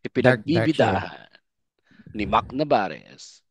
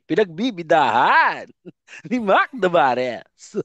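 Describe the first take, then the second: First: It is delivered with lower energy. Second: It is delivered with somewhat higher energy.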